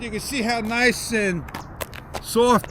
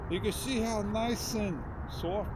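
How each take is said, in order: First: It is spoken loudly in a raised voice. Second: It is spoken softly in a natural voice. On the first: "You can hear the difference" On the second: "how nice and soft I'm talking in a natural voice"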